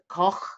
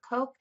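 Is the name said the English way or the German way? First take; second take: German; English. First: The name is said with a German pronunciation. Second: The name is said with an English pronunciation.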